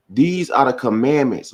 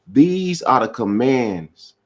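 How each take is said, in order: First: "commandments" said in full, "-ments" ending clear; corrected word. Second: Slow read with "commands", the word cut short; "commands" read slowly before the correction; misread word. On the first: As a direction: fixes it to "commandments". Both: Shown as a demonstration.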